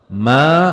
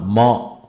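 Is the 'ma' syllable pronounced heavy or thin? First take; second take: thin; heavy. First: The syllable is pronounced thin and light. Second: The syllable is pronounced heavy, like ghain. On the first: The speaker calls it right. "Ma huruf tipis, tarqiq" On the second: The speaker calls it wrong. "Jangan ma, ma salah"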